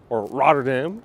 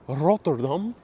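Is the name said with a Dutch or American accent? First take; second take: American; Dutch. First: It is said the American way. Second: It is said the Dutch way.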